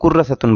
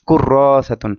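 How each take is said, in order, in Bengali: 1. র-এর পরের স্বরধ্বনিটি হ্রস্ব। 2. র-এর পরের স্বরধ্বনিটি টেনে দীর্ঘ করা হয়। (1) "অনেকে কুর্রাসাতুন বলে" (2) "এখানে একটা টান হবে"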